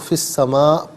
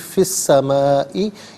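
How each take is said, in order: First: The phrase ends on 'a' without the vowel. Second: The phrase ends with a final 'ee' vowel. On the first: The reader pauses at this word. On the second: The reading continues without stopping.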